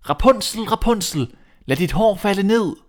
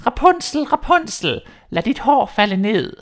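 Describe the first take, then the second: First: Higher, louder call of a prince copying the witch. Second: Much higher, louder, slow witch cry; a witch's call stretched up to the window. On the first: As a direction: call up to the tower, hopeful. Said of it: "gik han ud til tårnet og råbte". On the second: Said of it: "hørte hende sige". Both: Acted.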